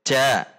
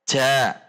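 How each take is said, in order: The two takes are said the same way.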